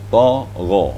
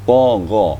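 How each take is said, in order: The two takes are said the same way.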